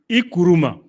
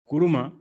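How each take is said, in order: First: The name is said in a raised voice. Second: The name is said in a plain voice. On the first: The person is being praised. "là j'ai élevé la voix en prononçant ton nom" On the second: The person is simply being called. "je t'appelle Kuruma"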